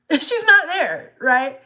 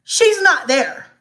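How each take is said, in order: First: Slow and high, laughing through panic; nervous laugh. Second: Said in the usual way. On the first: Real, not acted. Mom telling viewers her daughter wasn't there, nervous laughing. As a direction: laugh because it isn't funny. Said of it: "I'm laughing now, but it's not funny". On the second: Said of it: "I'm laughing now".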